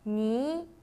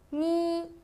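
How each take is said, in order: First: The pitch rises from middle to high. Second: The pitch stays high and level.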